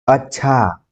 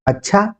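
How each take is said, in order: First: अच्छा drawn out with a falling tune; changed intonation. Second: अच्छा short, high and rising; questioning tune. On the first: Teacher showing another meaning, long falling अच्छा. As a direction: lengthen the end of अच्छा and let it fall. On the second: Teacher showing another meaning, high rising अच्छा. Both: Shown as a demonstration. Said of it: "यानी अनुतान के ऊपर".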